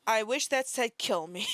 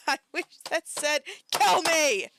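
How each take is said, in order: First: Said in the usual way. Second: High, loud yell bursting on "kill me"; exasperated yell. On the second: Real, not acted. Wishing the post said otherwise, exasperated yell. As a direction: repeat it, erupting on "kill me". Repeats it as a shout.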